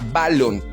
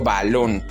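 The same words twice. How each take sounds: First: The stress is on the first syllable. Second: The stress is on the last syllable. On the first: The speaker calls it wrong. "Si la llevara en ba, entonces yo diría balón, pero no es así, suena muy raro" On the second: The speaker calls it right. "Su fuerza de voz en, es en lon, porque yo digo balón"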